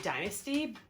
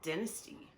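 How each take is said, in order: First: It is said with the American pronunciation. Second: It is said with a non-American pronunciation. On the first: "most Americans say dynasty. That's not right" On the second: "I would call it the dynasty"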